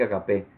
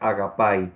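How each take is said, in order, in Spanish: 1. La palabra termina con el sonido 'eh'. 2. La palabra termina con el sonido 'eye'. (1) "Ya yo lo pronuncié mal, ¿verdad? Cuando dije agape" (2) "pero la pronunciación correcta es agapai"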